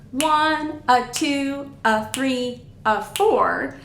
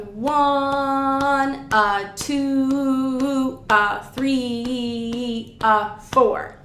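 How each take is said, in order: First: Moving rhythmic count, numbers held less long; faster dotted count. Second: Very slow, drawn-out dotted rhythm counting. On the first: Teacher showing the dotted pattern up to speed, faster rhythmic counting. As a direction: count the numbers briskly with a quick "a" before each. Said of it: "When we're moving faster". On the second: Oboe teacher demonstrating measure five's rhythm, slowed right down. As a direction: stretch each number long, then a short "a". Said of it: "that slowed it down a lot". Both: Shown as a demonstration.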